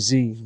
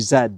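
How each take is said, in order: First: The letter is said the American way, 'zee'. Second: The letter is said the Canadian way, 'zed'.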